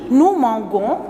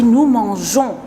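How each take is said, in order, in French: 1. Le g est dur, comme dans go. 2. Le g est doux, comme le j. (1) "Est-ce qu'on a dit nous mangeons? Non, jamais" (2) "pour prononcer jon"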